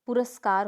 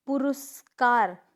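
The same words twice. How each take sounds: First: पुरस्कार said pu-ras-kaar; correct pronunciation. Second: पुरस्कार said slowly as pu-rus-kaar; wrong pronunciation. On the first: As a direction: model पुरस्कार with short a after the r. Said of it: "होता है". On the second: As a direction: demonstrate पुरस्कार with u after the r, drawn out. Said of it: "पुरस्कार होता है". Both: Shown as a demonstration.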